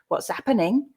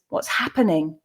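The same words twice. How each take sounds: First: The h sound at the start is dropped. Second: The h sound at the start is pronounced. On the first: This is how many regional speakers in England say it. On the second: This is the standard pronunciation.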